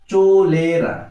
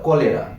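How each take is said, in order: First: The word begins with a ch sound. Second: The word begins with a k sound. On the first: It is a spelling aid for remembering the letters. The speaker calls it wrong. "কলেরা উচ্চারণ করবে কি? চোলেরা।" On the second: It is the real pronunciation of the word. The speaker calls it right. "কিন্তু উচ্চারণ হবে কলেরা।"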